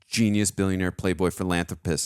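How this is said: It is said in a serious tone.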